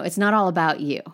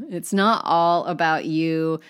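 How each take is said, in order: First: Said in the usual way. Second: Slow, loud "not all about you", each word weighted; slow emphatic repeat. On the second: Real, not acted. Teacher reassuring learners about accents, slowly emphatic.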